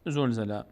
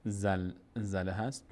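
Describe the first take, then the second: First: زلزله said zolzele, o then e; common wrong reading. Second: زلزله said slowly as zalzala, open a vowels; correct reading, slow. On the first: Teacher showing what many people say, zolzele. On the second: Teacher slowly modelling the right zalzala. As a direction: draw out زلزله with clear a sounds. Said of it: "اصل سوره". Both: Shown as a demonstration.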